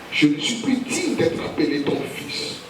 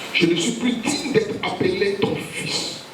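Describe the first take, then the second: Both takes have the same delivery.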